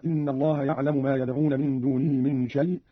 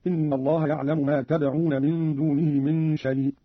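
First: Said in the usual way. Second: تدعون begun with t as address, slowly; tad'un with t. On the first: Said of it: "قرأ قالون بالتاء خطابا". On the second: Shown as a demonstration. Teacher demonstrating Qalun's second-person تدعون. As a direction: say تدعون, not yad'un. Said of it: "بالتاء خطابا هكذا".

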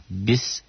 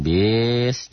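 First: "Bis" kept short, not stretched. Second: "bis" stretched long, as a mistake; wrongly drawn-out BIS. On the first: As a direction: say a brief, correct "Bis". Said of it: "mi-nya juga kosar". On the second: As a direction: show the wrong, lengthened "bis". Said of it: "Jangan bis, jangan". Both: Shown as a demonstration.

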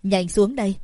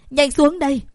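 First: Said in the usual way. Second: Much higher and louder, desperate; panicked plea. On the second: Acted. Daughter pleading with mother at the window, loud and panicked. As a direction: beg her urgently to get down.

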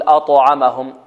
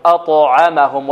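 First: أطعمهم with an "u" vowel slipped after the ط; bounce tilted to damma. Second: أطعمهم slowly, the ط bouncing with no added vowel; neutral qalqalah. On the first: Teacher shows a mistake, bounce tilted to damma. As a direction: wrongly round the ط of أطعمهم into "tu". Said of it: "نميلها الضم، خطأ". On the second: Teacher gives the correct way, neutral qalqalah. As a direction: bounce the ط in أطعمهم cleanly, drawn out. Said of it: "بل هي اضطراب في المخرج". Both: Shown as a demonstration.

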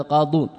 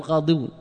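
First: قاضون with no ya, as "qaaduun"; two-syllable "qaa-duun" for قاضون; correct contracted form. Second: قاضون said with an extra i, as "qaadiyuun"; "qaadiyuun", the uncontracted form of قاضون; wrong form with ya. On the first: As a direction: go straight from d to long u in قاضون. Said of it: "نقول ماذا؟". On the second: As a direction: keep the ya before the long u, "qaa-di-yuun" for قاضون. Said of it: "نحن لا نقول". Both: Shown as a demonstration.

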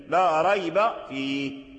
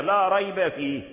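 First: لا ريب فيه read slowly, with ريب flowing on and no stop; connected recitation. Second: Said in the usual way. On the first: Shown as a demonstration. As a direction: recite it without pausing on ريب. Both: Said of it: "تسكن الياء".

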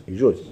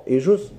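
First: يجوز. said low with a falling, settled tune; answering tune. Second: يجوز؟ asked with a rising, questioning tune; asking tune. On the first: Teacher answering his own question, firm falling tune. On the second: Teacher quizzing students on a grammar rule, rising question. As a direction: put يجوز؟ to the class as a real question, voice going up. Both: Shown as a demonstration. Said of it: "فلا يجوز؟".

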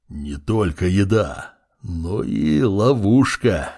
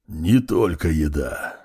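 First: Slow, low, otherworldly; slow undead lord voice. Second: Slow, low and measured; slow low undead voice. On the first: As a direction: drag the words out ominously. Undead lord's slow speech. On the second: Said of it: "ответила высшая нежить". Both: A narrator's reading.

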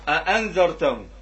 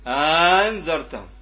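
First: أأنذرتهم with two short, separate glottal onsets; two separate hamzas. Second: أنذرتهم with the second hamza turned into a long drawn-out aa; ibdal reading. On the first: Teacher showing students a reading, أأنذرتهم with both hamzas separate. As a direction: say أأنذرتهم with both hamzas sounded, no long vowel. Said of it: "إذا الأزرق يقرأها ب". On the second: Teacher demonstrating al-Azraq's reading, أنذرتهم opening on a long aa. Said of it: "يقرأها بالإبدال". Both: Shown as a demonstration.

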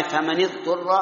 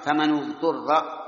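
First: فمن اضطر as "famani-ḍturra", with i on the nun; second reading, nun of فمن said "ni"; kasra reading. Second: فمن اضطر as "famanu-ḍturra", drawn out slowly; nun of فمن carries "nu" to match the u in اضطر; damma reading. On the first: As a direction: link فمن to اضطر with a short i. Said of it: "قراءة ثانية". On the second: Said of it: "لمناسبة الضمة في". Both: Shown as a demonstration.

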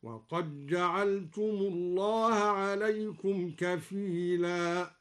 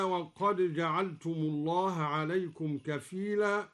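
First: "وقد جعلتم" said waqaj-ja'altum; slow recitation, "وقد جعلتم" with no d heard; dal merged into jim. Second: Said in the usual way. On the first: Shown as a demonstration. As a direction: swallow the d of "وقد" into a doubled j of "جعلتم". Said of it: "بإدغام الدال في الجيم هكذا". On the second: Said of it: "بإدغام الدال في الجيم".

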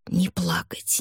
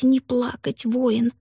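First: Urgent whisper. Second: Rising whisper. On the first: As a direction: breathe it out, steeling yourself. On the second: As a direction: whisper climbing higher. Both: A narrator's reading. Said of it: "твердил он себе".

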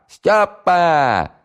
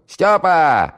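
First: "Стёпа!" yelled high and loud, stretched long on the "п"; drawn-out full-voice yell. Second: "Стёпа!" yelled high and loud down the flat; shouting at full voice. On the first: Valiulina calling Styopa again, a longer stretched yell. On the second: Valiulina calling Styopa to the phone, full-throated yell. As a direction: call "Стёпа!" across the hall at the top of your lungs. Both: Acted. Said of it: "заорала во всё горло".

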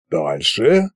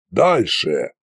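First: ДАЛЬШЕ rising at the end; prompting question. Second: ДАЛЬШЕ with a falling, final tune; commanding. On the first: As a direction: ask ДАЛЬШЕ with an upward tune. Koschei prompts for more. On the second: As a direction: order ДАЛЬШЕ as a curt command. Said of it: "приказал Кощей". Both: A narrator's reading.

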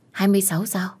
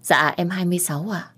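First: Surprised question. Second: Said in the usual way. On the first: Acted. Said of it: "Trẻ quá".

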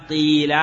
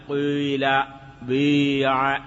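First: قيل with a clean i, a little louder; قيل with a pure i, the rejected reading; pure kasra. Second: قيل and بيع with the vowel between i and u; ishmam: an i coloured by a touch of u in قيل and بيع. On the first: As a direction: say قيل with a plain i, as the form not to use. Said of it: "لا يقال". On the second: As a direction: say قيل and بيع with a rounded i, a hint of u. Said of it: "بالحركة بين الكسرة والضمة". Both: Shown as a demonstration.

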